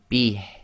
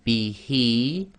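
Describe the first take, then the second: First: The word ends on the bare consonant. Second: The word ends with a long vowel. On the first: The reader stops at the end of the sentence. "this would actually become bih" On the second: The reader continues without stopping. "normally this would be"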